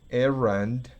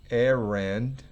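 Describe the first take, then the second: The two takes are said the same way.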